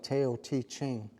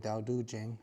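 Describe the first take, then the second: First: The name is said just as it is spelled. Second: The name is said differently from its spelling. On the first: The speaker calls it wrong. "It looks like Tao Te Ching" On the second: The speaker calls it right. "it's pronounced properly Tao Te Ching"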